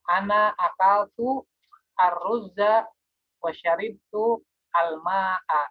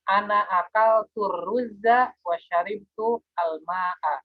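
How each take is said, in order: First: The article is pronounced separately from the preceding word. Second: The article is linked smoothly into the preceding word. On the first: "ya bisa dipisah" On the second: "bisa juga disambung"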